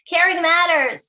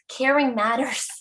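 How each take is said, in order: First: It is said noticeably louder than before. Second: It is said at ordinary speaking volume.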